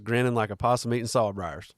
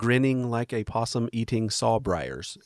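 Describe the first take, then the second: First: It is said in a Southern American accent. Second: It is said in a plain, neutral accent. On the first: The speaker calls it right. "You you have to say" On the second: The speaker calls it wrong. "you can't say"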